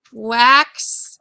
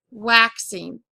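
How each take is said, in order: First: "Waxing" split slowly into wax, pause, ing; syllable by syllable. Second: Said in the usual way. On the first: Shown as a demonstration. Teacher dictating a word to write, syllable by syllable. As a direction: draw out each syllable of "Waxing" separately.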